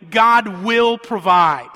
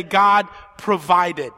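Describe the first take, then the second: First: "will" leaned on, slow and louder, questioning future tense; stress on will. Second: "provided" said slow and louder as a finished fact; past tense stressed. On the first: Preacher asking the congregation why, stressing "will". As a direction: linger on "will" in "God will provide". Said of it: "why would you use the word will". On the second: Preacher giving the congregation's answer, stressing "provided". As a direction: land "God provided" firmly, slowly. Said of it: "Past tense". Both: Shown as a demonstration.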